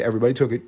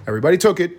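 First: A light hint of Trump, slightly lower; tossed off like Trump, barely voiced; Donald Trump. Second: Said in the usual way. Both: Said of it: "I sound like fucking Donald Trump".

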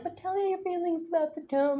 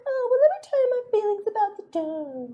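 First: Soft, higher put-on lover's murmur; mock pillow talk. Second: Very high, put-on wifely voice; hammed-up pillow talk, pitched way up; mock wife's reply. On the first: Teasing a married couple about bedtime chats, mock pillow talk. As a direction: play at coaxing a partner, hushed and high. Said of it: "don't you guys do it in, like, pillow talk". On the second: Imitating a wife answering her husband in bed, high mock pillow talk. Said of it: "And she's like".

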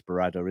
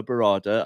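First: Barada with a short "a" as in "add"; corrected pronunciation. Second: Barada with an open "ah" in the middle; hesitant pronunciation. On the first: Pundit correcting himself on a name, Barada said "buh-RAD-uh". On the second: Pundit unsure of an executive's name, Barada said "buh-RAH-duh". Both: Real, not acted. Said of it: "I keep getting his name wrong".

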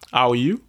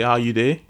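First: Said in the usual way. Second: Casual Nigerian Pidgin greeting. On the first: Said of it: "So instead of saying". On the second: Shown as a demonstration. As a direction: ask it in everyday Nigerian Pidgin. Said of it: "it's called Pidgin English or Broken English".

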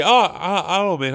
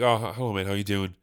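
First: Higher, stammered greeting; mock surprised hello. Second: Lower, toned-down stammered greeting; dutifully polite. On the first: Man meeting someone unseen for a while, mock surprise. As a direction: act caught out by an acquaintance. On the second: Acted. Man greeting an acquaintance, understated dutiful politeness. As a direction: go through the motions of a polite hello. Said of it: "out of politeness".

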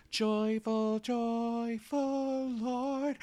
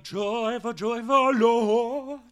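First: Slow, higher hymn singing; plain sung. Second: Higher, louder and slow soulful singing; sung, belt it with more soul. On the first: Choir singing the old plain version, slowly. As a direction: sing it straight like the choir. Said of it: "It was just". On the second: Sung, adult singer now doing the hymn with soul. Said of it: "now I just be like". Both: Retold or imitated.

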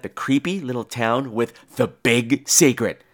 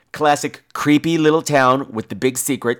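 First: Each word of "big secret" set apart with heavy weight; exaggerated audible capitals. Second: Weight on "creepy little town" and "big secret"; audible capital letters. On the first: Repeating the cliché to show it off, "big secret" heavily capitalized. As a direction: spell out the capitals in "creepy little town" and "big secret". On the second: Describing a horror cliché, capitals on "creepy little town" and "big secret". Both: Shown as a demonstration. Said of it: "all the capitalization I put".

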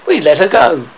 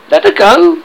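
First: Louder, complacent statement. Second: High, loud, rising question; outraged cry. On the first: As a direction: report it as if all is well. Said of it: "Smee answered complacently". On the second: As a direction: cry out in disbelief. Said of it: "cried Hook". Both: A narrator's reading.

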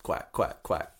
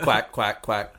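First: Whispered duck quacks; breathy quacking like a duck. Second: Duck quack. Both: Pretend. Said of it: "Whenever I quack".

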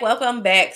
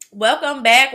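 First: Said in the usual way. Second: Upbeat greeting. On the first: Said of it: "repeat greeting". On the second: Shown as a demonstration. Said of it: "returning from break".

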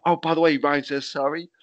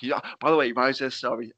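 First: Chirpy offhand messenger; casual relayed message. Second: Said in the usual way. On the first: Retold or imitated. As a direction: drop the news offhand and cheerful. Retelling the apology message.

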